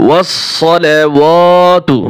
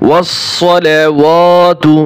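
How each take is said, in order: The two takes are said the same way.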